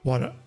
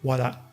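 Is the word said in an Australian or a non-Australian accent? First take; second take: non-Australian; Australian. First: It is said in the speaker's usual accent. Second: It is said in an Australian accent.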